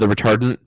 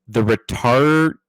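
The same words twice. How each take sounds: First: The phrase is said at normal speed. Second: The phrase is said very slowly.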